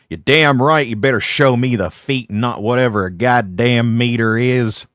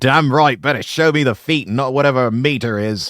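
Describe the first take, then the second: First: It is said in an American accent. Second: It is said in the speaker's own accent.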